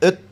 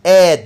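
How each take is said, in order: First: The vowel is reduced and weak. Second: The vowel is full and clearly pronounced.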